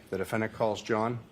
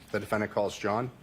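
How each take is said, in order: Both takes have the same delivery.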